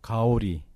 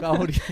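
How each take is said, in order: First: The first consonant is soft and lax. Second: The first consonant is hard and tense.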